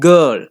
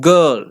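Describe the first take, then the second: First: The vowel is a long schwa. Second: The same.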